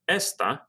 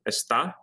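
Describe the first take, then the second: First: The stress is on the first syllable. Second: The stress is on the second syllable. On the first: It means this. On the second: It means he or she is.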